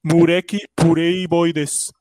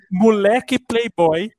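First: Slow Japanese-accented Portuguese. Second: Said in the usual way. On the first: Shown as a demonstration. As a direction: drag it out like a Japanese speaker. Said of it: "japonês falando inglês". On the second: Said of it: "ele falando em português mesmo".

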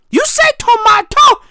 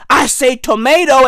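First: "tomato" high-pitched, as to-MAH-toe; British tomato. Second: "tomato" as to-MAY-doe; American tomato. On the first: Comic mimicking your way, high to-MAH-toe "tomato". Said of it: "what's more English than tomato". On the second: Comic answering with his way, "tomato" as to-MAY-doe. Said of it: "tomato is American as fuck". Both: Shown as a demonstration.

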